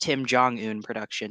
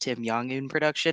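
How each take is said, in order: First: The middle name begins with a J sound. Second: The middle name begins with a Y sound. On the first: The speaker calls it right. "technically pronounced" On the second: The speaker calls it wrong.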